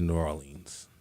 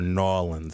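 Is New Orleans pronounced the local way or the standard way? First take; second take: standard; local. First: It is said with the usual outside pronunciation. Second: It is said with the locals' own pronunciation.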